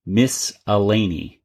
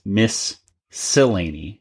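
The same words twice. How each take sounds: First: "Miss Elaney", slowly, as a name; "Miss Elaney" stretched out with no second s; split into two words. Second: "Miss Sillaney", slowly, as two words; "Miss Sillaney" stretched out as a name; split with second s. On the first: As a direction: break it after "Miss", then "Elaney" starting on a vowel. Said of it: "it sounds like he says". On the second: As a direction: pause after "Miss", then start "Sillaney" on an s. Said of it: "chest says". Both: Shown as a demonstration.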